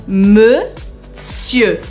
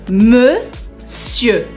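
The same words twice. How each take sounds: No difference in how they are said.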